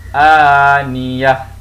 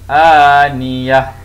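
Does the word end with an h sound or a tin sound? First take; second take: h sound; h sound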